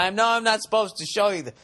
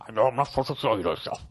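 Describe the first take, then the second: First: Higher, louder first go at a bad impression; half-formed presidential impression, pitched up; Nixon. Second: Rushed, bad presidential impression; Nixon. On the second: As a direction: put on a hammy president's voice, hurried. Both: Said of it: "That was a bad Nixon impression".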